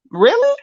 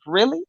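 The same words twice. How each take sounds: First: Really? rising much higher; incredulous. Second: Said in the usual way. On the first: Real, not acted. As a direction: squeak Really? in disbelief.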